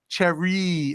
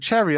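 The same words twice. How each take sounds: First: The word is pronounced in an odd way. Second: The word is pronounced in the usual way. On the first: The speaker calls it wrong. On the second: The speaker calls it right.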